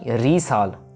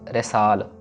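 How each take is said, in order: First: The first vowel is a long ee. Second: The first vowel is an e. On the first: The speaker calls it wrong. "ना ही रीसाल" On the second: The speaker calls it right. "हमने कहना इसको रेसाल"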